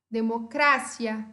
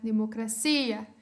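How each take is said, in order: First: It is said with Spanish word stress. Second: It is said with Portuguese word stress.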